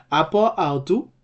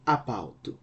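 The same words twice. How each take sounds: First: APO AUTU with both words whole; two full words. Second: APAUTU run together as one word; elided form. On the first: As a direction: say "apo autu" keeping the final o of apo. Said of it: "that disappears and replaced". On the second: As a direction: drop the o and join it up: "apautu". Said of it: "undergoes a process called elision". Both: Shown as a demonstration.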